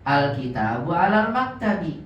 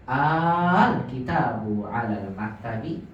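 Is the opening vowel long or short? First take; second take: short; long. First: The opening vowel is short. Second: The opening vowel is lengthened. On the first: It states that the book is on the table. "Kalau enggak ada a-nya gimana bacanya?" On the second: It asks whether the book is on the table. "ketika ada hamzah istifham bertemu al dipanjangkan"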